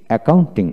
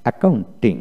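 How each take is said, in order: Both takes have the same delivery.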